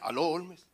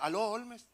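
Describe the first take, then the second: First: It is said in a deeper, thicker voice. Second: It is said in his normal voice.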